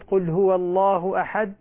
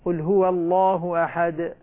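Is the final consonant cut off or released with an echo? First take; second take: cut off; echoed. First: The final d is stopped with no audible release. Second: The final d is released with a short echo. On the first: The final letter is not heard. The speaker calls it wrong. "ما سمعنا الدالة" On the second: The final letter is made clear. The speaker calls it right. "لما نقلقلها تظهر"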